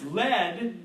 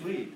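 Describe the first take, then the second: First: The vowel is short, as in bed. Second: The vowel is long, as in bead. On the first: It names the metal. "It's lead if you mean the metal" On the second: It means to guide or be in front. "if you're saying he he's going to lead the race, then it's lead"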